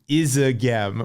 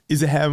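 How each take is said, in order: First: The name is said in a plain, non-local way. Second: The name is said in West Flemish dialect. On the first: The speaker calls it wrong. "that's not exactly how it was pronounced" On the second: The speaker calls it right. "It was like in West Flanders Flemish dialect"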